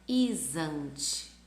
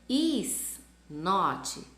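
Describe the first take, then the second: First: The two words are joined into one. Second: Said as two separate full words.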